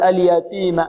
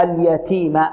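First: اليتيم with an unaspirated ت; dry "t" in اليتيم; ta without breath. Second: اليتيم slowly, with a puff of breath on ت; slow اليتيم with airy "t". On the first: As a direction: cut the puff of air from the ت in اليتيم. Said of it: "يظن أن التاء غير مهموسة". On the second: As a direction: aspirate the ت in اليتيم, drawn out. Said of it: "لا". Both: Shown as a demonstration.

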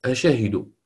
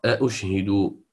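First: أشهد with one hamza, shin voweled; the others' reading. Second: أشهد with two hamzas, shin silent; Nafi reading. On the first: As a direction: say أشهد as the rest read it. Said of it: "والبقية تقرأ". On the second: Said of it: "هو الذي يقرأ". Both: Shown as a demonstration.

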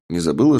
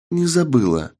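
First: Said in the usual way. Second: Put-on higher, firm young woman. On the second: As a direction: answer it firmly in a higher voice. Partner answers firmly.

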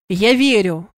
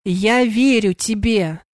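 First: Forceful, mildly shouted assurance; loud cry. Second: Slow, word-by-word assurance; measured, deliberate. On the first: Sandr breaks through her hysteria, restrained shout. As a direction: call it out firmly to get through. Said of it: "громко крикнул Сандр". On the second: Sandr repeats that he believes her, slow and deliberate. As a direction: space out each word firmly. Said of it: "с расстановкой повторил он". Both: A narrator's reading.

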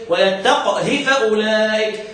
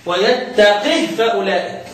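First: ترتيل بطيء، قاف "ويتقه" ساكنة وهاؤها مكسورة; كسر هاء "ويتقه" دون مد، والقاف ساكنة مقلقلة; سكون القاف وقصر الهاء. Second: ترتيل متأنٍ، قاف "ويتقه" مكسورة وهاؤها ساكنة; سكون تام على هاء "ويتقه" بعد قاف مكسورة; كسر القاف وتسكين الهاء. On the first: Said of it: "سكون مع اختلاس او مع قصر الحرف". (سكّن قاف "ويتقه" واقصر الهاء) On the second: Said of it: "هيكسر القاف ويسكن الهاء". (اكسر قاف "ويتقه" وسكّن الهاء) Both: Shown as a demonstration.

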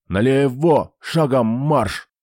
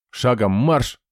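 First: Growled orders. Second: Sharp drill order; barked command. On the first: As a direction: roar at the soldiers. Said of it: "зарычал на подчинённых". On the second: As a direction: bark it like a sergeant. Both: A narrator's reading.

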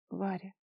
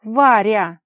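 First: Soft, affectionate use of her name; tender. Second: Very loud cry of her name; exclamation. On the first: Kolya touching her cheek, tender. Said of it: "нежно сказал он". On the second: Kolya cutting off Vara's tirade, exclaiming. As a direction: shout her name in protest. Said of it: "воскликнул Коля". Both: A narrator's reading.

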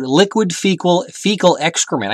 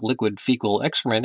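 First: Slow, deliberate quote in own voice, pitched up; measured, emphatic quoting; quoted phrase. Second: Soft, understated airline captain; pilot voice. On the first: Retold or imitated. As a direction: spell out each word slowly, higher. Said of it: "He said, quote". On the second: Acted. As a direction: say it as a quiet pilot announcement. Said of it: "him in the pilot voice".

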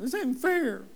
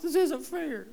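First: Put-on higher-pitched kid's whine on fair; whiny child. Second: Put-on much higher childish whine, drawn out; a kid protesting to mom and dad; whiny child. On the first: Pastor mimics a child whining to parents, higher and whiny. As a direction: sulk it like a child denied something. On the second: Pastor mimics a child whining to parents again, much higher.

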